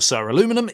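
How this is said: It is said with an American pronunciation. "if you're in the U S"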